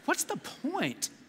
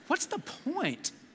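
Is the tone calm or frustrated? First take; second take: frustrated; frustrated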